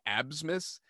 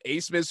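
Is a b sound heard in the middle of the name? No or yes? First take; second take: yes; no. First: A b sound is heard before the s. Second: No b sound is heard before the s. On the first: The speaker calls it wrong. "as it looks, it should be Absmus" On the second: The speaker calls it right. "you just don't say the B"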